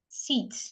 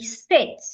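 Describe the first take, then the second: First: The vowel is long, like 'ee'. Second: The vowel is short, like 'ih'. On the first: The speaker calls it wrong. "many times or oftentimes we pronounce it as E. We say seat" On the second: The speaker calls it right. "change the letter I sound from E to A. So you want to say sit"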